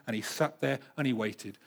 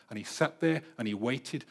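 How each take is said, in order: Both takes have the same delivery.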